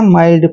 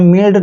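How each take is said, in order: First: The vowel is the diphthong 'eye'. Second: The vowel is a short i sound. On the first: The speaker calls it right. "माइल्ड पढ़ना है" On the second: The speaker calls it wrong. "आपने मिल्ड नहीं पढ़ना है"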